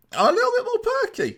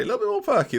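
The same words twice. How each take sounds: First: Very high falsetto perky squeak. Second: Raised, quicker perky voice. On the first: Acts out his lifted morale. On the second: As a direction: say it high but short of a squeal. Repeats the perky line less extremely. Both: Acted.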